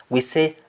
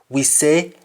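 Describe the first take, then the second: The two takes are said the same way.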